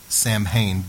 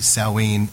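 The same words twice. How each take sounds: First: It is said the common English way. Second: It is said the original Gaelic way. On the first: The speaker calls it wrong. "we would pronounce that Samhain" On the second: The speaker calls it right. "but it's really Samhain"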